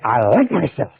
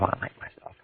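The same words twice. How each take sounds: First: It is said out loud, with force. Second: It is said quietly, as if to oneself.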